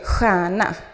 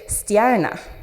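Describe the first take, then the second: First: The start is one plain sh sound. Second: Every letter of the start is sounded separately. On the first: This is how people elsewhere in Sweden say it. "you don't say stjärna for star" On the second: This is how it is said in the local dialect. "you actually pronounce all of the letters in the sh sound"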